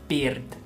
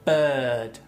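First: The vowel is short, like a Spanish vowel. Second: The vowel is a long central sound. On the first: The speaker calls it wrong. "no se dice work o bird" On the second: The speaker calls it right. "Se dice bird. ... Largo"

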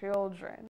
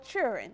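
First: The word is fully pronounced as 'children'. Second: The word is reduced, sounding like 'churin'. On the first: The speaker calls it right. "the correct pronunciation is children" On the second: The speaker calls it wrong. "Children or churin"

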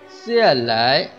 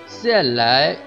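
Both takes have the same delivery.

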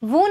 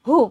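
First: The word starts with a v sound. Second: The word starts with an h sound. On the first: The speaker calls it wrong. "આપણે બોલીએ વુ વુ ન બોલાય" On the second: The speaker calls it right. "હુ બોલાય"

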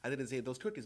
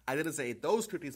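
First: The stress is on the word 'cookies'. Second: The stress is on the word 'those'. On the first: The speaker may have eaten something else. "but maybe I ate those brownies" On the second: The speaker may have eaten other ones. "but maybe other ones"

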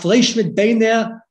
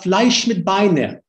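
First: It is spoken in a Ukrainian Yiddish accent. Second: It is spoken in a Polish Yiddish accent.

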